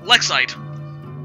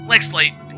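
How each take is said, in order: First: No L sound begins the final syllable. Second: An L sound begins the final syllable. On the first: The speaker calls it right. "There's no L" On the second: The speaker calls it wrong. "Is am I saying that right?"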